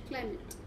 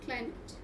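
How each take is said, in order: The two takes are said the same way.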